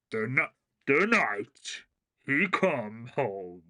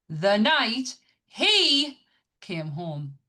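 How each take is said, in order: First: Slow, deep movie trailer announcer. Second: Screamed, very slow and high on the first words; all caps shouting. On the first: Retold or imitated. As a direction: read it like an epic trailer voiceover. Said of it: "you can hear it in, like, the trailer guy's voice". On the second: Shown as a demonstration. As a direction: yell it like it's written in capitals. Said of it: "I'm gonna say this, how it looks".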